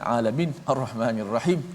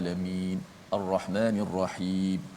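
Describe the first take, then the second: First: The final long vowels are cut too short. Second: The final long vowels are held for two counts. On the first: The speaker calls it wrong. "itu salah uh, cara bacaan begitu" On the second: The speaker calls it right. "paling pendek pun dua harakat ... biar macam tu"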